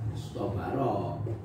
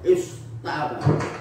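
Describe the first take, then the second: First: The t is emphatic, with darkened vowels. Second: The t is plain, with clear light vowels. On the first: The speaker calls it right. "taknya wajib diganti dengan ta" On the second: The speaker calls it wrong. "ngucapno istabaro itu wangel gak iso"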